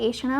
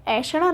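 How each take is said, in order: First: ऐषणा opening on "e"; ऐषणा with a close first vowel; correct form shown. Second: ऐषणा opening on "ai"; ऐषणा with an open first vowel; wrong form shown. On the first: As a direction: say ऐषणा as e-sha-ṇā. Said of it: "ऐषणा होता है". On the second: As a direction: say ऐषणा as ai-sha-ṇā. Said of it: "ऐषणा नहीं होता है". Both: Shown as a demonstration.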